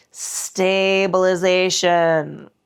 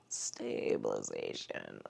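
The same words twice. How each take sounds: First: Slow drawn-out cue. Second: "Stabilization" repeated as a faint, breathy whisper; breathy echo. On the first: Instructor cueing the class, drawn-out and slow. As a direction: stretch out "Stabilization" slowly and evenly. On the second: Instructor echoing the cue to herself, barely audible. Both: Shown as a demonstration. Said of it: "says the cue word twice, differently".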